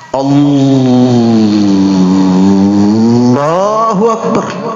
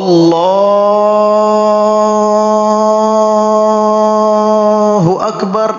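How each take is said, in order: First: It is revved like a racing engine. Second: It is wailed and drawn out like a siren.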